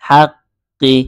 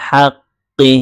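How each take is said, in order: No difference in how they are said.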